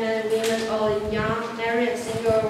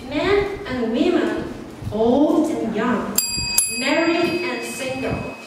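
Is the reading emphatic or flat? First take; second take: flat; emphatic. First: It is read flatly without stressing key words. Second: It is read with stress on key words. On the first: The speaker calls it wrong. "the first time" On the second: The speaker calls it right. "So this is the stress in some important messages"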